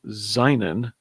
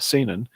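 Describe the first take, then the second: First: The word is read in a German-style way. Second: The word is read in a Japanese-style way. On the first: The speaker calls it wrong. "which I keep mispronouncing as seinen because I I used to speak German" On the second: The speaker calls it right. "or yeah"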